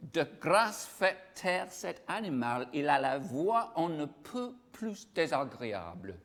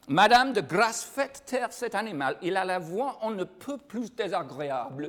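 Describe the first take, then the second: First: Slow French read aloud; lightly French. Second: Louder, higher French reading, "Madame, de grâce" punched; French with full accent, louder and higher; clearer French. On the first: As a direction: read the French line slowly. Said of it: "would anybody like to try and translate that". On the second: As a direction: declaim the French line clearly for the class. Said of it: "I'll say it again for you because you probably didn't understand it the way I was saying it". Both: Shown as a demonstration.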